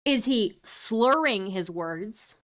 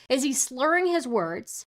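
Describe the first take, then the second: First: "slurring" drawn out slowly; slow, deliberate question leaning on "slurring"; stress on slurring. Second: Said in the usual way. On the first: Shown as a demonstration. Streamer checking which meaning is meant, "slurring" stretched out slowly. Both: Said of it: "Or is he saying slurs?".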